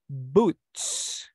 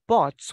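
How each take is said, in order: First: The vowel is an 'oo' sound. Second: The vowel is an 'oh' sound. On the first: The speaker calls it right. "we say boots" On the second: The speaker calls it wrong. "we don't say bots"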